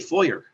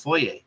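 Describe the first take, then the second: First: It is said the American way. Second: It is said the Canadian way. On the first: "they say foyer" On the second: "in Canada we say foyer"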